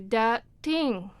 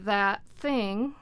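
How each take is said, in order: First: The th sounds are replaced by stop sounds. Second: The th sounds are made between the teeth. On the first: This is what speakers without these sounds produce. "some people would need to say dat ting" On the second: This is the standard English pronunciation. "that would be in, in English"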